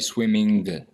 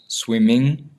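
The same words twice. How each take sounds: First: The ending is not nasal, with a hard finish. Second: The ending is nasal, resonating in the nose. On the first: The speaker calls it wrong. "You you don't say swimming" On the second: The speaker calls it right. "it ends in the nose"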